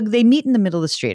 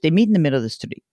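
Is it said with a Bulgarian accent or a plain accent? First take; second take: plain; Bulgarian. First: It is said in the speaker's plain accent. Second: It is said with a Bulgarian accent.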